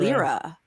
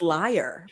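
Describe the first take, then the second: First: It has two syllables ending in an 'ra' sound. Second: It rhymes with 'fire', ending in an 'er' sound. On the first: "I've always said "lira,"" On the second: "instrument is pronounced liar"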